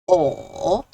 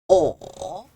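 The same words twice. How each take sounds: First: It is said with the third tone. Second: It is said with the third tone.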